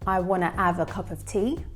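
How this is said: The H at the start of have is dropped. "If you're Cockney"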